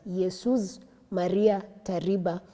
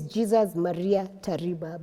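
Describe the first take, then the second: First: The name is read with a Spanish-like pronunciation. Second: The name is read with a Kenyan pronunciation. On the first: "I want to believe it's pronounced as" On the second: "as a Kenyan, you pronounce these names in a very interesting"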